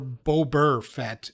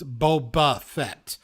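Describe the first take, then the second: First: Boba ends with an added R sound. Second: Boba ends with no R sound. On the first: The speaker calls it wrong. "neither Boba Fett or Bober Fett" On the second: The speaker calls it right. "It's Boba Fett because there's no freaking R in it"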